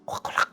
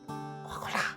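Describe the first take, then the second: First: It is said quickly and forcefully, repeatedly. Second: It is said once, at a normal pace.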